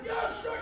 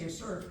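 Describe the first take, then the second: First: A sharp high yelled yes sir; mock scream. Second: Said in the usual way. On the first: Shown as a demonstration. Instructor shows the class a screamed reply, high yell. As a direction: scream it to show what not to do. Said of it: "You don't have to scream it at me". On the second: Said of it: "when I hear you say".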